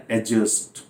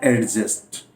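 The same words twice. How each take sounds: First: एडजस्ट as "a-just", the D silent; correct pronunciation. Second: एडजस्ट with the D sounded before the J; wrong pronunciation. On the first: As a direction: say "a-just", going straight to the J. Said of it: "यानी यहाँ डी silent". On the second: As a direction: say "ad-just" with an audible D. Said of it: "ये pronunciation गलत है". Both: Shown as a demonstration.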